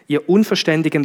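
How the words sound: It is said in a flat, neutral tone. "Jetzt habe ich es möglichst versucht, neutral zu sagen"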